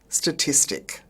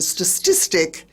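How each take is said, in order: First: It uses the standard pronunciation. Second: It uses a nonstandard Australian pronunciation. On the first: The speaker calls it right. "instead of" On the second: The speaker calls it wrong. "Wayne words are Australian expressions not pronounced correctly"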